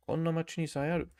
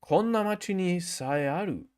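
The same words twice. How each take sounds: First: "Konna machi ni sae aru" rattled off fast; fast repeat. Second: Said in the usual way. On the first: Shown as a demonstration. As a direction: rush through "Konna machi ni sae aru" in one quick breath. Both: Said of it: "repeats sentence for practice".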